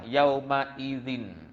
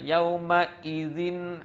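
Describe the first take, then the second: First: The hamzah is clear but light and flowing. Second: The hamzah is pressed hard and sounds heavy. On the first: The speaker calls it right. "Cepat tapi jaga hamzah tu. Tidak ditekankan ... Just dikuatkan, dijelaskan" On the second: The speaker calls it wrong. "jangan sampai berat sangat bunyinya. Jangan ... ah salahlah"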